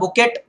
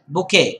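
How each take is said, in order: First: A t sound is pronounced at the end. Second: No t sound is heard at the end. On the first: The speaker calls it wrong. "त्याला बुकेट नाही म्हणत" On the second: The speaker calls it right. "टी शेवटी होता बुफे आणि silent आहे"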